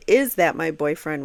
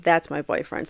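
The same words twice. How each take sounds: First: Put-on "Is that my boyfriend?" with a questioning rise on "boyfriend"; asked as a question. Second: Put-on "That's my boyfriend." stated with a falling tune on "boyfriend"; flat statement. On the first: Reading the officer's testimony to viewers, questioning tune. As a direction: read it as a real question, voice lifting at the end. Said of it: "which is a question mark". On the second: Reading the officer's report to viewers, falling statement. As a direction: say it as a plain fact, no question in it. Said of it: "he says it in a questioning way in his testimony".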